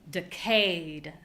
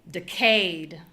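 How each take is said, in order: First: The stress is on the second syllable. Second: The stress is on the second syllable.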